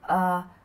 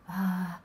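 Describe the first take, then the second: First: The voice is clear, with little air. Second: The voice is breathy, with much air. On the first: The speaker calls it right. "instead of" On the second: The speaker calls it wrong. "a voice that sounds with a lot of air in it, like this"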